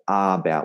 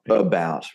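First: The first vowel is a full A sound. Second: The first vowel is a reduced schwa sound. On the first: The speaker calls it wrong. "we don't say A about or about" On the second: The speaker calls it right. "We go about"

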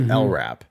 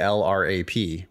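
First: It is spoken as a single word. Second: Each letter is spoken separately, L-R-A-P. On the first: The speaker calls it right. "We pronounce it as if it's a word" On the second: The speaker calls it wrong. "We don't say LRAP"

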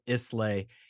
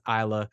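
First: The word ends with a 'lay' sound. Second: The word ends with a short 'la' sound. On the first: The speaker calls it wrong. "he pronounced it Islay, and it just ruined the entire facade" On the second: The speaker calls it right. "I assure you that it is Isla"

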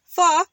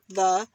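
First: The word begins with an f sound. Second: The word begins with a th sound. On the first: "but she'll be like" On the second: "saying her, like, T-H's, like"

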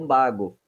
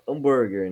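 First: It is said in a Japanese-English accent. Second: It is said in the speaker's plain accent.

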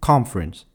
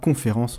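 First: The stress falls on the first syllable. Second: The stress falls on the last syllable. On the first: The speaker calls it right. "mais plutôt « conference ». Tu entends cette musique un peu « pam-pam »" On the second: The speaker calls it wrong. "ne donnera pas « conférence » en anglais"

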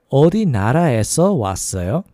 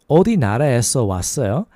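Both takes have the same delivery.

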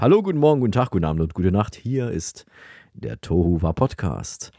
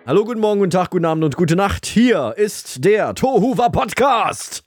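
First: It is said in a calmer way. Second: It is said in an aggressive way.

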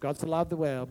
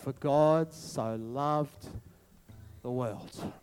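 First: It is rattled off mechanically, by rote. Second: It is said slowly with sincere feeling.

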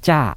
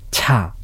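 First: The first consonant has no puff of breath. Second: The first consonant has a puff of breath. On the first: "息を出さないチャはチャーという感じになります" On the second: "息を出すチャはチャーという感じになります"

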